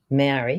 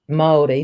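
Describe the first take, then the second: First: It is said with English vowels and sounds. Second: It is said with Māori vowels and sounds. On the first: The speaker calls it wrong. "not Maori" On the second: The speaker calls it right. "pronouncing words right"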